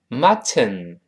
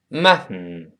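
First: It is said slowly with a full final syllable. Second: It is said quickly with the t released nasally. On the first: "读慢了叫mutton" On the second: "读快了叫mutton"

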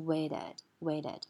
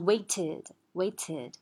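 First: The middle t sounds soft, like a d. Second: The middle t is released crisply. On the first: The speaker calls it right. "t 它就变成了有点类似于d 的感觉" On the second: The speaker calls it wrong. "它不是waited"

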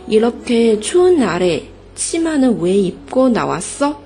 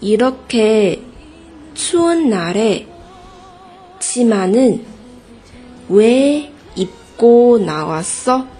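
First: It is said at normal speed. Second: It is said slowly.

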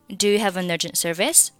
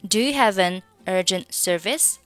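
First: Have, an and urgent are all run together. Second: Only have and an are run together. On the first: "三个单词连读" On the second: "你可以选择仅仅是have 和an 的连读"

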